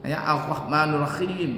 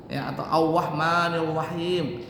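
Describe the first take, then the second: First: Ar-Rahmanir Rahim with a throaty R like gh; mock a speaker who can't roll R; mispronounced R. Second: Ar-Rahmanir Rahim said as Auwahmanil Wahim. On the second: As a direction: lisp the R into a W. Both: Shown as a demonstration. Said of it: "nggak dapat huruf R-nya".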